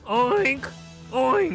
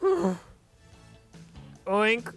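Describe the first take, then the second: First: It is said loudly. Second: It is said quietly.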